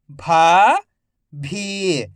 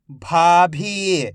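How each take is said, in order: First: "भाभी" split into भा, pause, भी, each drawn out; syllable by syllable. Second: "भाभी" joined as one word, long vowels; syllables blended. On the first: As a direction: sound out "भाभी" slowly, भा rising, भी falling. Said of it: "एक एक अक्षर का उच्चारण". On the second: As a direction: say "भाभी" in one connected stretch. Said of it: "तो मिलके बन जाएगा". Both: Shown as a demonstration.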